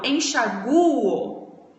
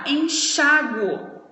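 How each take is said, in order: First: The stress falls on the vowel u. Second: The stress falls on the vowel a. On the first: "a pronúncia tá no U" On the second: "a pronúncia tá no chá"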